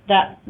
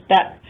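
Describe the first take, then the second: Both takes have the same delivery.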